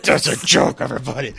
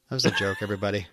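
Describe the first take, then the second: First: Louder announcement. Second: Low-key, muted passive-aggressive aside. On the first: Pretend. Co-host redoing the disclaimer after being teased, louder and playful. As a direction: announce it openly to the whole audience. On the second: Real, not acted. Co-host disclaiming a joke to listeners, quietly passive aggressive. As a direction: drop it softly, as a pointed disclaimer. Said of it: "you can't be passive aggressive".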